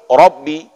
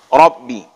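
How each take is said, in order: No difference in how they are said.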